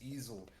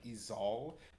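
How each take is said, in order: First: The name is said like the word easel. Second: The name is said the way it reads. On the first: This is how the owner says it. The speaker calls it right. "that's not how I pronounce it. It's just Easel" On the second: This is how others read it. The speaker calls it wrong. "that's not really how it's pronounced. If you looked at it, it's more of e- like Ezal"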